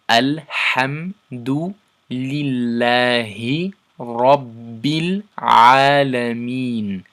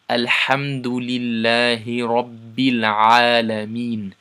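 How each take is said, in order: First: The verse is recited at a slow pace. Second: The verse is recited at a fast pace. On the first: "if we read the whole verse together" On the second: "about two to three times normal speed"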